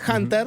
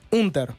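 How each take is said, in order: First: The name begins with an English h sound. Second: The name begins directly with a vowel. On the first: The speaker calls it wrong. "yo lo pronuncié en inglés" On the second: The speaker calls it right. "en realidad él lo pronuncia Unter"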